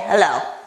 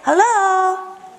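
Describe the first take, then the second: First: It sounds annoyed, in a bad mood. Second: It sounds friendly and normal.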